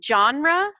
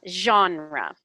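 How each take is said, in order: First: It begins with a hard 'j' sound. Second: It begins with a soft 'zh' sound. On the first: "like someone's name John" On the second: "zh with a kind of a Z"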